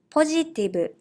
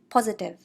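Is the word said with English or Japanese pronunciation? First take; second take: Japanese; English. First: It is said with Japanese katakana pronunciation. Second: It is said with English pronunciation. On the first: "I will read in Japanese first" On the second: "meaning positive"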